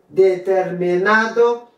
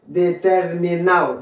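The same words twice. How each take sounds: First: Determinado slowly with "-NA-do" sounded; "Determinado" ending in a distinct "-ado"; full D. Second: Determinado said "de-ter-mi-NAO", falling; "determinado" with its last D silent; dropped D. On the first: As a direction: say Determinado in full, last D clearly heard. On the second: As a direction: slide A into O in determinado. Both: Shown as a demonstration. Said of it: "ou qu'à prononcer ou qu'à pas".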